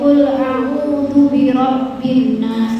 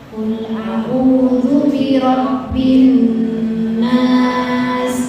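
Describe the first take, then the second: First: The doubled n is rushed without holding it. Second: The doubled n is held long before continuing. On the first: The speaker calls it wrong. "Ini mau nyamper ya ... Jangan" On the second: The speaker calls it right. "kalau ada nun bertasydid tahan dulu Bu"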